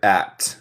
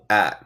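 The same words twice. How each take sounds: First: The final T is clearly pronounced. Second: The final T is swallowed, American style.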